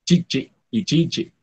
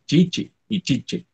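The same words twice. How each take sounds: First: Chichi with a long final vowel, then chichi short; teacher shows double vowels slowly; long vowel contrast. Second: Chichi with a clear i, chiche ending in e, said slowly; slow contrast of Chichi and chiche; teacher repeats the pair for students; vowel contrast repeated. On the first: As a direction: stretch the first chichi, clip the second. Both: Shown as a demonstration. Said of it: "se escuchan como dobles vocales".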